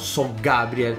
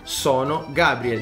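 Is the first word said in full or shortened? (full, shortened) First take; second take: shortened; full. First: The first word is shortened to so. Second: The first word is said in full as sono. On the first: This is the Roman dialect form. The speaker calls it wrong. "Non puoi dire son Matteo, so Gabriel" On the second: This is standard Italian suited to television. The speaker calls it right.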